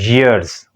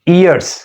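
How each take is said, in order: First: It starts with a clear y sound. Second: It starts with a vowel, like ears. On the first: The speaker calls it right. "we have to pronounce the sound of y in clear way" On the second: The speaker calls it wrong. "We people pronounce this this word"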